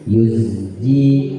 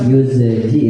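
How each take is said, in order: First: The z is held and flows straight into j. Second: The z is released with a bounce before j. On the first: The speaker calls it right. "Seakan-akan zai dengan jim satu kata" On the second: The speaker calls it wrong. "Coba kalau kita lepas yuzji, nah jadi mantul kan?"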